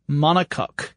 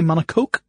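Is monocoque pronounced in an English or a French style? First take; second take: English; French. First: The word is pronounced in an English style. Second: The word is pronounced in a French style. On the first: "That's how Scott pronounces it" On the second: "I would say monocoque because I think of it as French"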